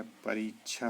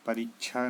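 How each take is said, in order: First: परीक्षा with long "ree"; correct pronunciation. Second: परीक्षा with short "ri"; wrong pronunciation. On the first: Teacher gives the right form, long "ree" in परीक्षा. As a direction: lengthen the middle vowel of परीक्षा. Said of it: "होता है". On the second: Teacher voices the error, short "ri" in परीक्षा. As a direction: shorten the middle vowel of परीक्षा. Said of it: "नहीं होता है". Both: Shown as a demonstration.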